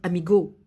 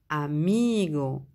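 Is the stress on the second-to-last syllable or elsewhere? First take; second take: elsewhere; second-to-last. First: The stress is not on the second-to-last syllable. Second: The stress is on the second-to-last syllable. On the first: The speaker calls it wrong. "on ne peut pas dire amigo" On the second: The speaker calls it right. "On dit amigo"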